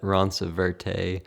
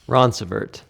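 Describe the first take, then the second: First: The name is said in a French-like way. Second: The name is said in a plain anglicized way. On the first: This is how visitors say it. "we get all sorts of things" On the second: This is how locals say it. "we don't say it as if it was French. It's a redneck version"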